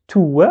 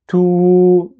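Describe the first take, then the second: First: "tout" said as "tou-wa", not prolonged; short two-part "tou-wa" for "tout"; waw pronounced. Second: "tout" as one long held "touuu"; higher, louder, sustained oo on "tout"; prolonged vowel. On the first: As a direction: sound the w in "tout" and add a short a. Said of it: "et je prolonge pas". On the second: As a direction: stretch the oo of "tout", loud, level, with no w. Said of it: "il y a juste le prolongement". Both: Shown as a demonstration.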